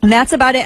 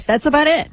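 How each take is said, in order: First: Said in the usual way. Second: High-pitched politician impersonation; put-on high politician's voice; Lindsey Graham impression. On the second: Shown as a demonstration. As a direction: say it higher, imitating a politician. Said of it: "I can do Lindsey Graham's voice".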